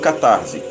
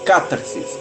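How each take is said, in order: First: The word ends with a final 'se' sound. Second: The word ends with a final 'sis' sound. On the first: The speaker calls it wrong. "e não catarse" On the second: The speaker calls it right. "A pronúncia correta seria essa"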